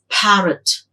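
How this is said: It is said with a British English accent. "British English, it's parrot"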